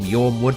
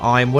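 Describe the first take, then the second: First: The name starts with a 'y' sound. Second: The name starts like the word 'iron'. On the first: "Some people call them Yormwood" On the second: "some people call them Ironwood"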